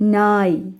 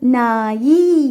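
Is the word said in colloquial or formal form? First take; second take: formal; colloquial. First: The word ends on a consonant, no added vowel. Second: The word ends with an added vowel sound. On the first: This is the written, standard form. The speaker calls it right. "எழுத்து வழக்குக்கு மாற்றுறதுக்காகத்தான்" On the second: This is how a child says it in everyday speech. The speaker calls it wrong. "பையன் எப்படி சொல்லுவான்?"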